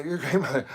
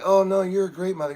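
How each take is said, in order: First: Said in the usual way. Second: Higher, louder reassurance to a crying mother; eager reassuring protest; placating. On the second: Retold or imitated. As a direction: hurriedly soothe her, pitched up and loud. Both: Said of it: "I'm like".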